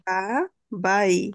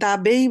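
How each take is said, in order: First: The second syllable sounds like 'bye'. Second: The second syllable sounds like 'bay'. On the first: The speaker calls it right. "কারণ কি আই।" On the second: The speaker calls it wrong. "এটা কি দা বেই বলা যাবে?"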